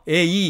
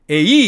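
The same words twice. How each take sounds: First: Both vowels get equal stress. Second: The stress falls on the second vowel. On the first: "우리말처럼 액센트를 똑같이 줘서 에이 이렇게 읽으면 안 되고" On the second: "에이 이렇게 액센트를 거꾸로 읽으면 더더욱 안 되겠죠"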